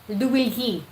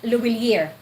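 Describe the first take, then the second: First: The name ends in a plain 'ee' sound. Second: The name ends with an added 'er' sound. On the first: The speaker calls it right. "in French, you can pronounce that Louilly" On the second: The speaker calls it wrong. "not Louillier"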